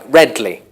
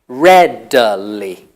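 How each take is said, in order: First: The word is squeezed into two syllables. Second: The word is said in full with three syllables.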